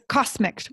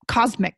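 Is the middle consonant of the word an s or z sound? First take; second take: s; z. First: The middle consonant is a voiceless s sound. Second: The middle consonant is a voiced z sound. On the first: The speaker calls it wrong. "We see it written, we may think it's cosmic" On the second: The speaker calls it right. "Cosmic, right?"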